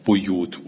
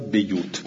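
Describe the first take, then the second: First: The first vowel is a u sound. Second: The first vowel is an i sound. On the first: This is the reading used by the other reciters. "همه رو به زم میخونن" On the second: This is one reciter's reading of the word. "بیوت را بیوت میخونه"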